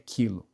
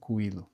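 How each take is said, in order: First: No w-like sound follows the k. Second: A w-like u sound follows the k. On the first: The speaker calls it right. "é quilo" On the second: The speaker calls it wrong. "a gente não fala quilo"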